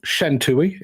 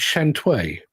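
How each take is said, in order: First: The name ends with a two-vowel 'tooey' sound. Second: The name ends with a one-syllable 'tway' sound. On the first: The speaker calls it wrong. "our final film is not Shantui" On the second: The speaker calls it right. "it's Shantway. Yes, that's what it is"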